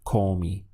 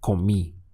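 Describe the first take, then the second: First: The stress is on the first syllable. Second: The stress is on the last syllable. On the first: The speaker calls it wrong. "It can't be comí because that doesn't exist in Spanish" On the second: The speaker calls it right. "You must stress this final I in order to be understood. So it has to be comí"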